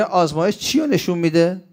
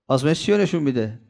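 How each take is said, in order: First: Rising question on چی, higher, inviting an answer; asking the audience. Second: Quicker, falling tune on «چی», expecting a reply; repeated question. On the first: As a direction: ask «چی» with a lifted, open rise. (پرسش با لحن بالارونده روی «چی») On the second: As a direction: drop the voice on «چی» and push on faster. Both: Shown as a demonstration. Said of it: "بگی".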